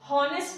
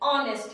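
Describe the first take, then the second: First: The word starts with an audible h sound. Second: The word starts with a vowel, h silent. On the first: The speaker calls it wrong. "honest नहीं है guys" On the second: The speaker calls it right. "ये honest है"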